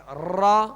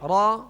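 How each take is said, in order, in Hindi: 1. "r" कई बार दोहराए गए हल्के झटकों से कंपता है। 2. "r" में हल्का, सूक्ष्म कंपन होता है। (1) "एक रा की बजाय कई रा बन जाते हैं, जैसे रा, ये गलत है" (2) "यानी आवाज़ में कप कपी हो"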